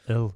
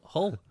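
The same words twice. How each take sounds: First: Hull with a Hull accent, short flat vowel; Hull accent demo. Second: Put-on local Hull accent. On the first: Shown as a demonstration. Mimicking Hull locals, Hull in their accent. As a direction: say Hull the way Hull folk do. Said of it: "trying to say it like they are". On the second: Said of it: "he's trying to say Hull".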